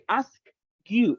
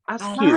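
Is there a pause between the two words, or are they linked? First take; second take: pause; linked. First: The two words are split by a short stop. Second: The two words run together without a stop. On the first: The speaker calls it wrong. "Don't stop. Don't say ask you. Uh-uh" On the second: The speaker calls it right. "Don't stop"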